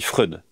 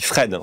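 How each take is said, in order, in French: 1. Le nom se prononce avec un 'oy'. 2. Le nom se prononce avec un 'e' simple. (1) "je dis non, on dit Freud" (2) "il me dit Fred, on dit Fred"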